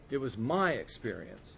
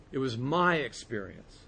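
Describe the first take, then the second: No difference in how they are said.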